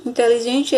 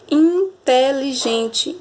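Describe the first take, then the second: First: Said in the usual way. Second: Slow, stretched "inteligente"; teacher sounding out in-te-li-gen-te; syllable by syllable. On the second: Shown as a demonstration. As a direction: draw out each syllable of "inteligente". Sounding out a five-syllable word.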